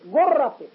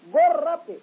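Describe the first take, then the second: No difference in how they are said.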